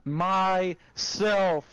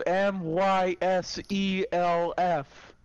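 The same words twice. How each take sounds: First: Said in the usual way. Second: M Y S E L F spelled letter by letter, slowly. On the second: Shown as a demonstration. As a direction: spell out M Y S E L F one letter at a time.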